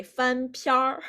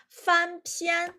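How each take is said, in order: First: 翻篇儿 with the last syllable curled into an R; Beijing-style R colouring on the end of 翻篇儿; Beijing erhua. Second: Said in the usual way. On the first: Shown as a demonstration. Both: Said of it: "And in Beijing accent".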